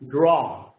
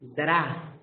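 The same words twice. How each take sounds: First: The word is pronounced with an English vowel. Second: The word is pronounced with a Spanish vowel. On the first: The speaker calls it right. "In English" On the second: The speaker calls it wrong. "Draw is in Spanish"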